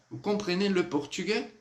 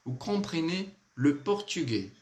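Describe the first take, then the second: First: Higher voice, "portugais" rising as a question; question intonation. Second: Said in the usual way. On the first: Shown as a demonstration. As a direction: ask "vous comprenez le portugais?" with a clear lift at the end. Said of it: "Que é uma pergunta". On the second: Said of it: "dificuldade de pronunciar isso, ó".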